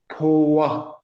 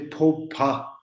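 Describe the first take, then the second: First: The second syllable starts with a w sound. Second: The second syllable starts with a p sound. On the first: The speaker calls it right. "I will say po wa like this" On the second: The speaker calls it wrong. "I won't say po pa"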